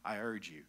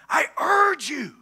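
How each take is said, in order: First: It is said flatly, without strong feeling. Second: It is said with strong, urgent emphasis. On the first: It is a plain, routine request. The speaker calls it wrong. "he wasn't just saying" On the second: It is a heartfelt, pressing plea. The speaker calls it right. "I think he's saying"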